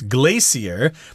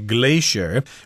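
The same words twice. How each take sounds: First: The word has a non-American pronunciation. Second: The word has an American pronunciation. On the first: "heard some people pronounce this word as glacier" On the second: "Americans say glacier"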